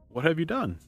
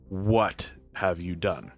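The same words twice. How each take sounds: First: It is asked in a casual, friendly tone. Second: It is asked in a stern, accusing tone.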